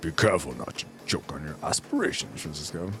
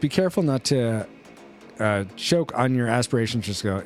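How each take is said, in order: First: It is said in a deep Darth Vader voice. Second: It is read in his normal voice.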